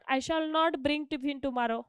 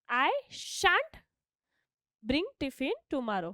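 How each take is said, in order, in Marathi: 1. 'Shall' आणि 'not' वेगळे शब्द म्हणून म्हटले जातात. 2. 'Shall' आणि 'not' एकाच अक्षरात मिसळले जातात.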